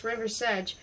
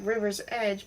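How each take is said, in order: First: "Riversedge" run together as one name, ending like sedge; surname pronunciation. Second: "River's Edge" as two words, river's then edge; as spelled. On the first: Narrator showing how a surname sounds, "Riversedge" as one word. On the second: Narrator explaining a surname's spelling, "River's Edge" said as two words. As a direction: say "River's Edge" just as it is written. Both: A narrator's reading. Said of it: "but pronounced Riversedge".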